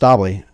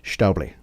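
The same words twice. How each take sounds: First: The name is said with an American accent. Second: The name is said with a Swiss German accent. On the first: This is how the speaker himself says it. The speaker calls it wrong. "I would say Stabli" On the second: This is how people in Switzerland say it. The speaker calls it right. "if you're in Switzerland, they would say Stabli"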